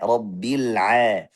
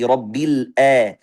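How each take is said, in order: First: The ain has a narrow, throaty middle-throat friction. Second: The ain starts with a glottal stop from below. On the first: The speaker calls it right. "Tapi a, rabbil a" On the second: The speaker calls it wrong. "langsung dari hamzah ... Ini juga salah"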